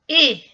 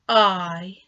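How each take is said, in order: First: The vowel is said with its short sound. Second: The vowel is said with its long sound. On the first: "short sound" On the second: "long sound"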